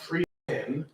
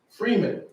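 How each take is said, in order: First: It is said as two separate words. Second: It is said as one single word. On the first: The speaker calls it wrong. "not free men" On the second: The speaker calls it right. "one word, proper pronunciation"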